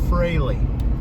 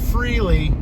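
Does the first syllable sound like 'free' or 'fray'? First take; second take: fray; free. First: The first syllable sounds like 'fray'. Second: The first syllable sounds like 'free'. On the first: The speaker calls it right. "That's how you pronounce it" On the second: The speaker calls it wrong. "Not Freely"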